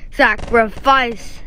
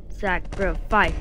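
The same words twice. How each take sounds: First: Fuller slow sacrifice. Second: Soft slow sacrifice. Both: Shown as a demonstration.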